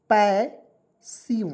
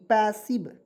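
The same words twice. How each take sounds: First: passive very slow, with a long gap inside; syllable by syllable. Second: Said in the usual way. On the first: Shown as a demonstration. Teacher showing learners how to read it, syllable by syllable. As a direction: stretch passive into two separate syllables.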